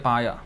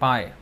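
First: The word ends with a full final 'ya' syllable. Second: The word ends without a final 'a' vowel. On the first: The speaker calls it wrong. "they don't say paya in Bengali" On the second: The speaker calls it right.

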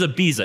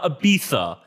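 First: The middle consonant is a plain S sound. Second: The middle consonant is a lisped TH sound. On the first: The speaker calls it right. "In America, it is Ibiza" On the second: The speaker calls it wrong. "It is not Ibiza"

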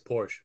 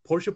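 First: The name ends without the final vowel. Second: The name ends with a pronounced final vowel. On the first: This is a glib, very casual way to say the name. "really, really casual. Like, hey dude, nice Porsche" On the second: This is the standard way to say the name. "It's always Porsche"

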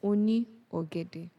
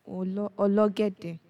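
First: It is said fully with the 'ni' syllable. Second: The 'ni' becomes 'l' and the words merge. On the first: "a person that sells banana is oni ogede" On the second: "So that ni is changed to l"

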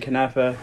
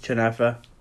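First: It is said in a plain standard accent. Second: It is said in a rural village accent. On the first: "I say it normal" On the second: "If you're, you know, falahi, kanafa. That's how they say it"

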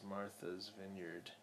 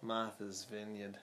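First: It is said in the speaker's plain accent. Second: It is said in a New England accent.

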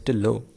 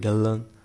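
First: The name ends without a full n sound. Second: The name ends with a full n sound. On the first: The speaker calls it right. "we know the pronunciation is [name]" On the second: The speaker calls it wrong. "I don't know why people are calling him [name]"

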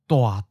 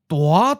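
First: The syllable is said with a falling mid pitch. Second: The syllable is said with a rising mid pitch. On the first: It means sort of big. "The first syllable goes down and changes to mid-falling" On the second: It means really big. "The first syllable becomes mid-rising ninth tone"

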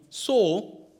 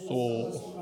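First: It is said in a normal reading voice. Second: It is said in a very deep voice.

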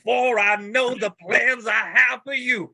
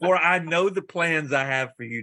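First: It is read in a dramatic Pentecostal preaching style. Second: It is read in a calmer, plainer, less preachy way.

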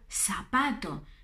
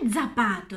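First: The first sound is a plain s. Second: The first sound is a hard Italian z. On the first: The speaker calls it right. "Pronunciar la española latinoamericana" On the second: The speaker calls it wrong. "Non è zapato"

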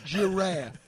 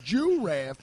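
First: The first syllable sounds like 'jih'. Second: The first syllable sounds like 'jew'. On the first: The speaker calls it right. "it's giraffe" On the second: The speaker calls it wrong.

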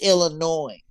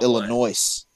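First: The word ends without any S sound. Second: The word ends with an audible S sound. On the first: "They're like" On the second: "there's an S on the end"

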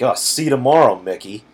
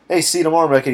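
First: It is said with a snide, mocking tone. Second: It is said in a plain, friendly tone.

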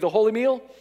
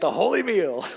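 First: It is said plainly, without extra force. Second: It is said with strong, emphatic conviction.

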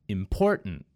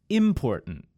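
First: The stress falls on the second syllable. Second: The stress falls on the first syllable. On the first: The speaker calls it right. "the correct pronunciation was when I put emphasis on the middle syllable" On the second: The speaker calls it wrong. "In the word important, which is incorrect, I emphasized the first syllable, im"

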